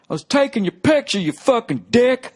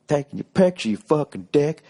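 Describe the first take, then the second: First: Yelling heckler. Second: Lighter heckler impression. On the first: Retold or imitated. Heckler yelling at the comic from the crowd, high and loud. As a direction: bellow it like an offended drunk in the crowd. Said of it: "he just yells out". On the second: Comic quoting the heckler to him again, lightly. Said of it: "You took it really personally".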